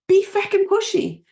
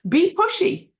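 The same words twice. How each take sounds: First: "feckin'" hit hard, high and loud; Irish fired-up command leaning on "feckin'"; emphatic. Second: Much higher and louder, rising on pushy; fired-up command; urging. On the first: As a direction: punch "feckin'" to drive it home. Escalated urging. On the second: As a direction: fire the audience up with "pushy". Urging the audience. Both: Real, not acted.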